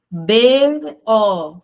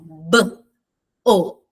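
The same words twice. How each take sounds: First: Each letter is said by its name. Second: Each letter is said as its sound. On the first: The letter names do not blend into a syllable. "B mais O é o nome da letra" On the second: The letter sounds blend into a syllable. "se eu fizesse o som"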